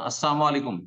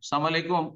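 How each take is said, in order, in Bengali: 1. প্রথম শব্দটি পূর্ণভাবে বলা হয়। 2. প্রথম শব্দটি ছোট করে ও বিকৃতভাবে বলা হয়। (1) "যেমন আসসালামু আলাইকুম" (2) "যদি বিকৃত করে দেয়"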